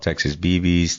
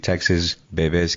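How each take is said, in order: First: Bebes is said like English letters B B. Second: Bebes has its original, non-English pronunciation. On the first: "we go off" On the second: "the original pronunciation will be"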